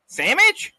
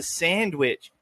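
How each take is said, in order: First: "Sandwich" as "SAM-mitch", high and loud. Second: "sandwich" slowly, with the n, d and w sounded; careful standard pronunciation. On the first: Acted. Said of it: "I give you the redneck accent". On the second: Shown as a demonstration. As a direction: say all of "sandwich" clearly: SAND-wich. Correct word against redneck version.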